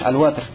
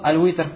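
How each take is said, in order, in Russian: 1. После w стоит a. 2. После w стоит i. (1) "с фатхи над «вау»" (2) "можно прочитать с хасры под «вау»"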